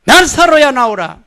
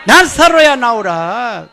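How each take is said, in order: First: Loud, high call-and-response command; congregation call. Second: Slower and louder command; louder, slow call to Lazarus; stronger. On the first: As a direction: lead the room in the call. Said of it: "따라해봅니다". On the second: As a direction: push it harder this time. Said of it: "더 세게 해보겠어요". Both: Shown as a demonstration.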